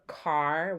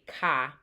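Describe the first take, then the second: First: The final R sound is clearly pronounced. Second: The final R sound is dropped. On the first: "what I just said was the car" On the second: "the speakers often drop from the letter R"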